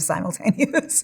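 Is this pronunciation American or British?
American. It is pronounced the American way. "instead of simultaneous"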